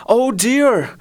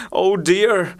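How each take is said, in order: First: Higher moan. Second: A mild, understated moan of "Oh dear,". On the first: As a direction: lift "oh dear," into a high plaintive moan. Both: A narrator's reading.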